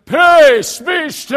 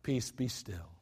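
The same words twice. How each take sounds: First: Huge, high shout of peace be still; thundering showy command; dramatic yell. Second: Soft, low, calm command; just speak it, no need to yell; calm quiet command to the sea; simply spoken. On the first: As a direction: bellow it for the whole world to hear. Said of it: "I don't think he went". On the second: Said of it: "I think he spoke it". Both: Shown as a demonstration.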